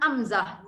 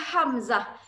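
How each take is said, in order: First: The word begins directly with a vowel sound. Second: The word begins with an audible h sound. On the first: The speaker calls it wrong. "kenapa saya dengar Amzah?" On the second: The speaker calls it right. "Dia Hamzah"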